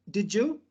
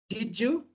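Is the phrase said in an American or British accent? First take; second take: American; American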